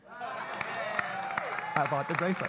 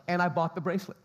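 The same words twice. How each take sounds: First: Very slow, drawn-out repeat. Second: Said in the usual way. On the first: Real, not acted. Pastor stretching the punchline about buying the bracelet, very slow.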